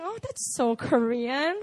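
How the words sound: It is said in a condescending, despising tone.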